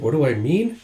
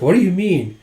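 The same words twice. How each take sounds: First: Said in the usual way. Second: "What do you mean?" lifted high; acted puzzled "What do you mean?"; puzzled question. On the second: Character questions, other echoes it.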